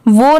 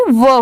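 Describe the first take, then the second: First: "वो" with a closed long o, "voh"; wrong pronunciation. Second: "वो" said as a short open "vuh"; correct pronunciation. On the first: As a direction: round "वो" into a full oh. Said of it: "वो नहीं". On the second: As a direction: open up "वो", no oh sound, as at the start of worried. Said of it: "वो होगी". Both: Shown as a demonstration.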